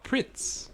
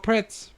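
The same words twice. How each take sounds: First: "pritz" said with a short i as in "bit"; explaining the Japanese name, "pritz" with an i sound. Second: "pretz" said with a short e as in "bet"; pretz, English way. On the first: "pritz" with the i of "pit". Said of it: "in Japanese they're called pritz". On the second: "pretz" with the e of "pet". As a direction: friend asks about snacks, "pretz" in English. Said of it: "but in Japanese they're called pritz". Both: Shown as a demonstration.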